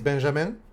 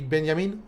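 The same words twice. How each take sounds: First: The name is pronounced the French way. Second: The name is pronounced the Swedish way. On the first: "In French, Benjamin is" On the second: "I think in Swedish, maybe"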